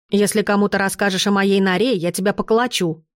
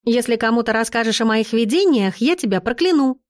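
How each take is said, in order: First: Put-on mild boyish threat, pitch held down; understated warning; threatening. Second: Teasing, lightly amused warning; laughing promise. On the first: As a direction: warn them off, not too seriously. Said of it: "пригрозил он". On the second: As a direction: threaten back in fun. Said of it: "засмеявшись, пообещала я". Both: A narrator's reading.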